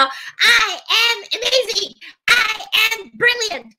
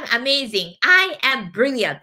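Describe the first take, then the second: First: High, drawn-out chant; 掛け声で唱和. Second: Said in the usual way. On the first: Shown as a demonstration. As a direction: lead the crowd, very high and slow. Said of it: "せーの". (高く伸ばして力いっぱい唱える)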